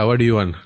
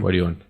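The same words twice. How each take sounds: First: It is said cheerfully, with laughter and energy. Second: It is said flatly, with low tired energy. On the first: "I laugh and ask" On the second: "I I damn tired"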